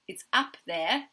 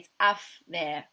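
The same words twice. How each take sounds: First: The word 'up' ends with a p sound. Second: The word 'up' ends with an f sound. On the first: The speaker calls it right. "instead of saying it's up" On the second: The speaker calls it wrong. "he might say"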